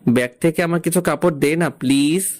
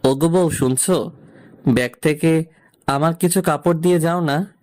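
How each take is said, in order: First: The request is said in a plain tone. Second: The request is said in a sweet tone.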